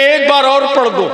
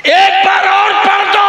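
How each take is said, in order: First: Eager plea. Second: Higher and louder, begging to hear it again; urgent shouted plea. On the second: Farooq Azam begging to hear the verse, shouted. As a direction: shout the request out in awe. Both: Retold or imitated. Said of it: "Farooq आजम आगे बढ़ के कहते".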